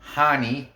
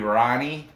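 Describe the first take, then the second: First: The name begins with an H sound. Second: The name begins with an English R sound. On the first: "because he's Brazilian, the R's are H's" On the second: "It might be Rani. It's R A N I"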